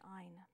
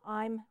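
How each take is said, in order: First: The word ends with an N sound. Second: The word ends with an M sound. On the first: The speaker calls it wrong. "to pronounce an N rather than an M" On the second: The speaker calls it right. "I'm rather than ein"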